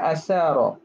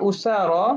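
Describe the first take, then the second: First: The first vowel is an a sound. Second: The first vowel is an u sound. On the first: "Boleh juga dibaca dengan asara" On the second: "baca dengan dhammah hamzah wa fathiha"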